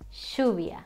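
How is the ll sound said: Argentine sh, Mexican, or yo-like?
Argentine sh. The ll is said like sh. "The other one is like saying shh"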